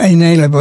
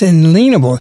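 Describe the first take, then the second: First: The middle sounds like the word alien. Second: The middle sounds like the word lien. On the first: The speaker calls it wrong. "It's not inalienable" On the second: The speaker calls it right. "it's inalienable. Nobody can put a lien against rights"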